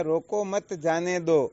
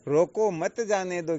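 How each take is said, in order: First: रोको set apart, then मत जाने दो as one command; loud, slow order with the break after रोको. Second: रोको मत kept together, then जाने दो; loud, slow order with the break after मत; comma after मत. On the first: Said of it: "केवल मात्र कोमे का ही तो अंतर". (रोको के बाद विराम) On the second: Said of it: "अंतर हुआ आगे पीछे लगाने का". (मत के बाद विराम) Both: Shown as a demonstration.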